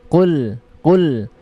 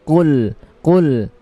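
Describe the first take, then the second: The two takes are said the same way.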